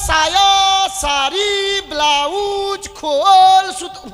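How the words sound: The items are separated by clear pauses. The speaker calls it right. "ফাঁক ফাঁক করে বলবো না?"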